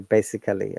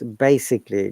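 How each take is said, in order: First: The vowel before '-lly' is fully pronounced. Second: The vowel before '-lly' is dropped. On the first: The speaker calls it wrong. "do not say basically" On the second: The speaker calls it right. "we do not pronounce the A at all"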